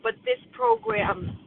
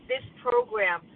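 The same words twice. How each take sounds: First: "this" lifted high and slowed right down; stress on this. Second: Said in the usual way. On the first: Real, not acted. Sharing at a recovery meeting, pitch way up on "this". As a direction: lean hard on "this" in "this program".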